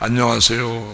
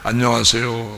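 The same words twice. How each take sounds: First: It is said the way men greet him. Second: The same.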